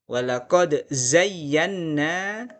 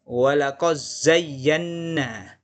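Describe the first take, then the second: The two takes are said the same way.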